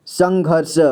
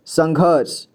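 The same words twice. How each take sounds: First: संघर्ष split into its pieces, "sang-ghar-sha"; संघर्ष with the last letter voiced; sounded out. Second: Said in the usual way. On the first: Shown as a demonstration. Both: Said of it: "तो इसे पढ़ेंगे संघर्ष".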